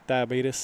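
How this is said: The word is said with a Southern accent. "That's how they say it in the South"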